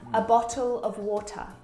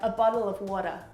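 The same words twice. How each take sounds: First: The middle T is a crisp T sound. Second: The middle T sounds like a soft D. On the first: "like someone from the U K would say" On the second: "one similarity between the Australian accent and the American accent, is this double T"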